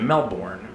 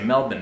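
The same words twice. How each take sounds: First: It is pronounced the American way. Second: It is pronounced the Australian way. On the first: "which is what Americans say" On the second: "I say Melbourne now"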